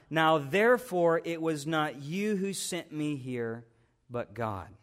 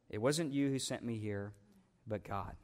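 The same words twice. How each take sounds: First: Said in the usual way. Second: Low, soft restatement of the verse; hushed repeat. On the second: Real, not acted. Preacher repeats the verse to let the congregation absorb it, hushed. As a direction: let it sink in quietly, dropping lower on the last words.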